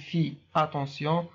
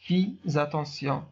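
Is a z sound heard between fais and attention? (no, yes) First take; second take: no; yes. First: No z sound links the two words. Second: A z sound links the two words. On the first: The speaker calls it wrong. "لا نقول" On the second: The speaker calls it right. "S avec A se prononce Z. ... ولكن نقول"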